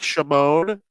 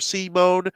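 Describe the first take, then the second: First: The name begins with a sh sound. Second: The name begins with an s sound. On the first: This is the Slovak way to say the name. "it's very Slovakian to do the sh at the beginning" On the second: This is the French or English way to say the name. "the French or English way"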